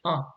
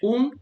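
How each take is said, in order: First: The word is pronounced the French way. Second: The word is pronounced the Spanish way. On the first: "but in French you say un" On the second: "in Spanish you say un"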